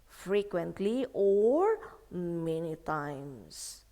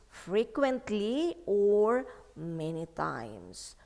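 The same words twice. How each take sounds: No difference in how they are said.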